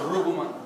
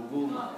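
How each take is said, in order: First: Ruguma with the weight on the first syllable, RU-guma; wrong stress on Ruguma. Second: Ruguma with the weight on the middle, ru-GU-ma; stress on second syllable. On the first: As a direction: lean on the opening RU of Ruguma. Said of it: "the stress goes automatically on the first". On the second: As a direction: hit the GU of Ruguma. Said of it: "So it's on the second". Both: Shown as a demonstration.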